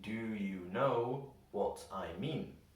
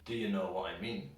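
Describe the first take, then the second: First: Each word is said slowly and fully. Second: Words are reduced to schwas and linked together. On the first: "if we read it slowly" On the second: "in a normal conversational way, almost every single word gets a schwa sound"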